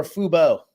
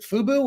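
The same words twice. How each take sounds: First: "Fubo" ending in a long O; alternate pronunciation. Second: "Fubo" ending in a boo sound; alternate pronunciation. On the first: Host unsure of the streaming service's name, "Fubo" as FOO-boh. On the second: Host unsure of the streaming service's name, "Fubo" as FOO-boo. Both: Shown as a demonstration. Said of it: "is it Fubo or Fubo".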